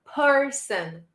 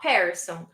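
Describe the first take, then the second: First: "person" as "PUR-sn", with r-coloured first vowel; correct person pronunciation. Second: "person" said as "PAIR-son", with an open "e"; mispronounced person. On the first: Teacher corrects the sound for students, careful person pronunciation. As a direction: say "person" with a "purr" first syllable. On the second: Teacher shows students what not to say, mispronounced person. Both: Shown as a demonstration. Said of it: "not person".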